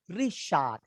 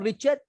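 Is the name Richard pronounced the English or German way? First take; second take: German; English. First: The name is pronounced the German way. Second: The name is pronounced the English way. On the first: The speaker calls it right. "In German" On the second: The speaker calls it wrong. "Not Richard"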